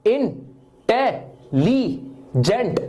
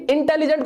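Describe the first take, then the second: First: "इंटेलिजेंट" very slowly in four separate pieces; syllable by syllable. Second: Said in the usual way. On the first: Shown as a demonstration. Teacher counting four sounds for students, "इंटेलिजेंट" split into four slow beats. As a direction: break "इंटेलिजेंट" into इन... टे... लि... जेंट. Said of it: "चार बार में आपकी आवाज निकली". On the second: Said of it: "इंटेलिजेंट को बोल के देखो".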